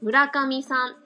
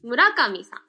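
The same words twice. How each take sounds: First: It is said in standard Japanese, fairly flat. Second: It is said in Hiroshima dialect, middle raised.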